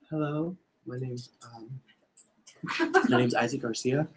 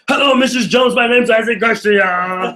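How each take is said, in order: First: It is said in a hesitant, unsure way. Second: It is said in an overbearing, pushy way.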